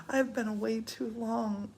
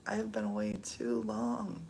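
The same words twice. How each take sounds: First: Said in the usual way. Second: Lower, weightier repeat. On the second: Shown as a demonstration. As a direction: lower and heavier, spelling out I have. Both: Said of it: "repeats the same line".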